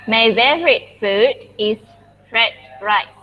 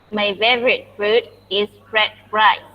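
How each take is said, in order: Both takes have the same delivery.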